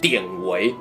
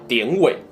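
First: The second syllable has a rising second tone. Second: The second syllable has a changed, non-rising tone. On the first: This is the standard reading. "正音要读典韦" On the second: This is the reading most viewers are used to. "大部分观众习惯的变调"

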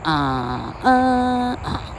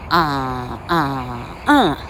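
First: The second syllable is the highest in pitch. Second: The third syllable is the highest in pitch.

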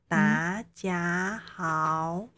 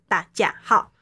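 First: Every syllable is said with a rising pitch. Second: Every syllable is said with a falling pitch. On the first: "每个声音都是往上滑的哦" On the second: "声音就是往下坠"

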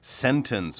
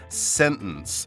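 First: The T is fully pronounced. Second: The T is dropped, American style.

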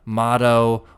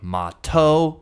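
First: The middle consonant is a soft D sound. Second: The middle consonant is a clear T sound. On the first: This is how Americans say it. "Americans will say motto with a D sound" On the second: This is how speakers from England say it. "English speakers from England will say motto with the T sound"

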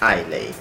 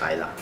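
First: The word ends with an 'ay' sound. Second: The word ends with an 'ah' sound. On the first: The speaker calls it wrong. "我们很容易就会把它读成艾雷" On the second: The speaker calls it right. "它正确的发音是艾拉"

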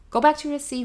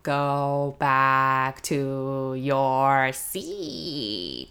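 First: The phrase is spoken quickly. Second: The phrase is spoken slowly. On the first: The children could not follow what was said. The speaker calls it wrong. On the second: The children understood what was said. The speaker calls it right.

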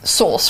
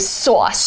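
First: It is said in a British accent. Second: It is said in a New York accent.

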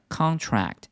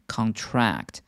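First: The stress is on the first syllable. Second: The stress is on the second syllable. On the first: It is a noun meaning an agreement. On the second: It is a verb meaning to shrink or catch.

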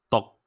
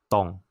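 First: The pitch is low and cut short. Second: The pitch is low and falling.

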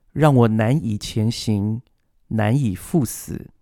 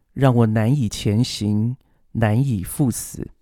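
No difference in how they are said.

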